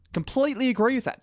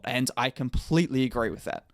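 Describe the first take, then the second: First: High, overdone mock agreement; exaggerated sarcastic. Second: Flat, dry sarcasm; deadpan sarcastic. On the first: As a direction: pitch it up in sarcastic over-agreement. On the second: Acted. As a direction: say it straight-faced but mean the opposite. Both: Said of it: "that was sarcasm".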